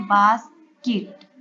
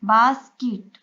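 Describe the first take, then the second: First: "basket" slowly, pause between बास and केट; divided into syllables. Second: Said in the usual way. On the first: Shown as a demonstration. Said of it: "इन दोनों को divide करके हम syllable division". ("Basket" को धीरे तोड़कर: बास, केट) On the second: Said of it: "इन दोनों को डिवाइड करके".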